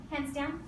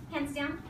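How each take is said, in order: Both takes have the same delivery.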